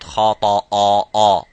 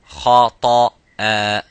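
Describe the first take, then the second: First: The final hamza sounds heavy and full-mouthed. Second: The final hamza sounds light and thin. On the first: The speaker calls it wrong. "not خَطَأً" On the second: The speaker calls it right. "Both of them are full mouth, but not this one"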